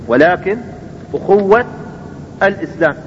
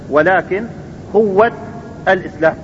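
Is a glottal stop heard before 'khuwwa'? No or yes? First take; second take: yes; no. First: A glottal stop is kept before the second word. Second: The glottal stop is dropped and the words run together.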